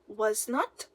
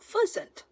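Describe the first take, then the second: First: Both words are said fully and separately. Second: The words are shortened into one syllable.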